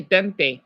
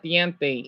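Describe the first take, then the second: First: "dente" said without the i glide, de-n-te; "dente" with plain short e, no "ie"; own pronunciation. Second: "diente" with the i glide, di-en-te; textbook pronunciation. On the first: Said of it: "I say dente". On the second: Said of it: "not diente". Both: Shown as a demonstration.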